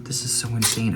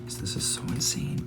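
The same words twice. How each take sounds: First: Said in the usual way. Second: Whisper. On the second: Real, not acted. First take of repeated line.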